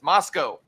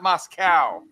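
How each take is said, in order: First: The final syllable does not rhyme with cow. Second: The final syllable rhymes with cow. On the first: The speaker calls it right. "it's Moscow" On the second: The speaker calls it wrong. "putting a cow in Moscow"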